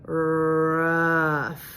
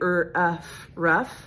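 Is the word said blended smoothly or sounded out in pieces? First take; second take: blended; sounded out. First: The sounds are blended into one smooth word. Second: Each sound is said separately with breaks. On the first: The speaker calls it right. "they go rough. That's really what we're going for" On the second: The speaker calls it wrong. "instead of saying"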